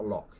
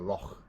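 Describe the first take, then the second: First: The word ends in a hard k sound. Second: The word ends in a breathy throat sound. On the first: The speaker calls it wrong. "It's not a loch" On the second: The speaker calls it right. "it's a loch"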